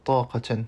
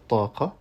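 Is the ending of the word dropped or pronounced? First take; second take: pronounced; dropped. First: The word ends with its final syllable pronounced. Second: The word ends without its final syllable. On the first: "au lieu de dire taqatan" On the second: "on pourrait dire taqa"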